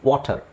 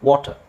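The two takes are said the same way.

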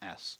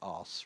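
First: It is said with an American accent. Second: It is said with a British accent. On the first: "it sounds a bit American for our ears" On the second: "we tend to say "ass""

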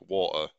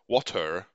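First: The word is pronounced in a light, lazy way. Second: The word is pronounced in a careful, affected way. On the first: The speaker has dropped the pretence. "the sort of light, lazy pronunciation of it" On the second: The speaker is trying to sound educated. "he's trying to sound more educated than he is"

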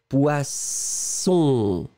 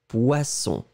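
First: The s sound is held long. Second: The s sound is short. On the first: "c'est de faire le son un petit peu plus long au début" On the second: "vous le mettez plus court"

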